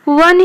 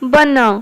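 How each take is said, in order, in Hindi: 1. शब्द की शुरुआत v ध्वनि से होती है। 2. शब्द की शुरुआत b ध्वनि से होती है। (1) "वन को हिंदी रे कौन कहती? वन ही कहती" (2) "किंतु ओडिया रे बन"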